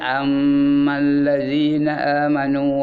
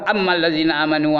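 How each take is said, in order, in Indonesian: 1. Dengung sengau pada m ganda ditahan. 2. Dengung sengau pada m dihilangkan. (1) "itu cara baca betul" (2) "Tak ada dengar langsung"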